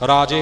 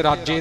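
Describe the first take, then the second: First: ਰਾਜੇ with long aa and single j; single soft consonant. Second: ਰਾਜੇ with a heavy doubled j, "rajje"; short vowel and hard double j in ਰਾਜੇ; wrong doubled consonant. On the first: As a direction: say ਰਾਜੇ as "raa-je". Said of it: "ਰਾਜੇ ਬੋਲਣਾ ਹੈ ਜੀ". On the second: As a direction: demonstrate ਰਾਜੇ as "raj-je". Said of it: "ਇੱਥੇ ਰਾਜੇ ਨਹੀਂ ਬੋਲਣਾ". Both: Shown as a demonstration.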